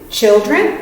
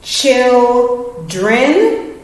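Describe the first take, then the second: First: Said in the usual way. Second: Put-on "children" stretched as chil and dren; careful split read of "children"; syllable split demo. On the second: Shown as a demonstration. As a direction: say "children" slowly in two parts. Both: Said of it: "Vowel, consonant".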